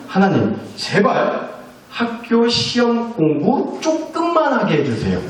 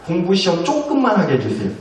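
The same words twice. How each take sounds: First: Put-on slow, higher childish plea to God; lightly voiced daughter praying slowly; pleading child prayer. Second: Said in the usual way. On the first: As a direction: beg like a kid who hates studying.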